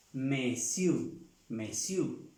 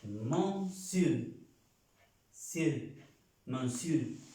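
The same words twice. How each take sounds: First: "monsieur" as "mesiu", learner's mistake; wrong pronunciation. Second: "monsieur" said "mosul", French way; correct French. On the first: Teacher imitating students' wrong "monsieur". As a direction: mimic beginners saying "monsieur" as "mesiu". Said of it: "No es monsieur". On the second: Teacher modelling the correct French "monsieur". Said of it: "Señor en francés es". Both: Shown as a demonstration.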